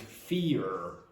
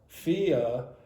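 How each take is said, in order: First: The final R sound is pronounced strongly. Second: The final R sound is dropped. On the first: This is understood by most English speakers. "it is better for you to pronounce the R. ... make it strong" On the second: This is how some dialects, such as London's, say it. "if you go to London, you might hear people say former or fear"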